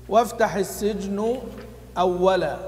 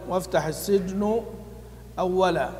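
Both takes have the same delivery.

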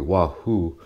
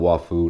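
First: The name sounds like wahoo, with an h. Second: The name sounds like waifu, with an f. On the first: The speaker calls it right. "Actually, it's apparently wahoo" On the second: The speaker calls it wrong. "Not waifu"

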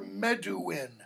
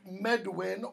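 First: The W is said as an oo vowel sound. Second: The W is said as a consonant w sound. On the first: "sometimes it's pronounced oo" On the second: "sometimes pronounced like a wa"

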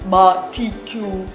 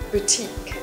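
First: The word sounds close to 'barbecue'. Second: The word sounds like 'boo-teek'. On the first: The speaker calls it wrong. "If you pronounce the barbecue, you're not alone" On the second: The speaker calls it right. "But try correct your pronunciation to this word"

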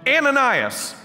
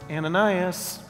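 First: The name is yelled loudly. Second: The name is said softly.

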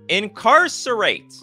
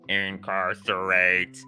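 First: It is said in his normal voice. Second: It is said in a robot voice.

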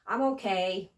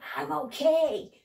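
First: It sounds hesitant and unsure. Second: It sounds happy and upbeat. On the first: The speaker is not sure how they feel. "اگه خوب نباشی نمیدونی تکلیفت چیه میگی" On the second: The speaker feels very good. "اگه خیلی خوب باشی میگی"

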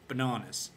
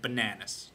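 First: It is said in an English accent. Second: It is said in an American accent. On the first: The speaker calls it right. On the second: The speaker calls it wrong.

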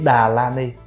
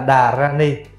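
First: The middle syllable starts with an L sound. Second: The middle syllable starts with an R sound. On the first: This reading is further from the Sanskrit original. The speaker calls it wrong. "nó gần hơn là chữ Đà La Ni" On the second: This reading is closer to the Sanskrit original. The speaker calls it right. "mình đọc lại là Đà Ra Ni"

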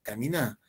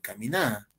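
First: The stress is on the last syllable. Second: The same.

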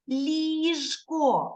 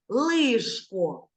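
First: The first L sound is soft. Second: The first L sound is hard. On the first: The speaker calls it right. "м'яко ми говоримо" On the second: The speaker calls it wrong. "це було б твердо"

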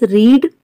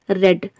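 First: The vowel is long, like in 'need'. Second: The vowel is short, like in 'bed'. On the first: It is the present tense: to read now. "base form is read" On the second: It is the past tense or past participle. "then red, red"

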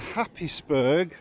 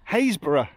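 First: The name is said as spelled, 'Happis-burgh'. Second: The name is said as 'Haysborough'. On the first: The speaker calls it wrong. "even though you want to say it's called Happisburgh or whatever" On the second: The speaker calls it right. "it's Haysborough"

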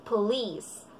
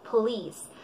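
The two takes are said the same way.

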